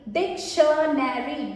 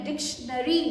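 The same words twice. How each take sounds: First: "डिक्शनरी" stretched slowly as डिक, शन, नैरी; slow sounding-out. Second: Said in the usual way. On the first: Shown as a demonstration. Teacher joins spelled parts, "डिक्शनरी" slow and stretched. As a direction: draw out each part of "डिक्शनरी".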